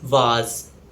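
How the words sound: It is said in a British accent. "In British English, it's pronounced as vase"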